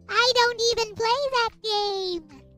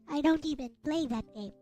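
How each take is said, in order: First: It is said imitating Kyoko's voice. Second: It is said in the speaker's ordinary voice.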